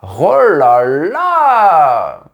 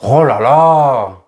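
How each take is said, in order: First: It sounds surprised or admiring. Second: It sounds annoyed and irritated.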